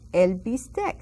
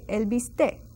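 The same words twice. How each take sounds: First: The final c sound is pronounced. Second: The final c sound is dropped.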